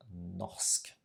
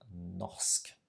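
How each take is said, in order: First: A guttural R is heard before the s. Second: The same.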